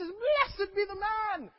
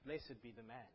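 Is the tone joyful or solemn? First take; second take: joyful; solemn. First: It is said in an excited, joyful, lively tone. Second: It is said in a flat, solemn, straight-faced tone. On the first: It expresses delight and happiness at being forgiven. The speaker calls it right. "This is blessed be the man. Wow, brilliant" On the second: It is a grave, formal pronouncement. The speaker calls it wrong. "You cannot say it with a straight face"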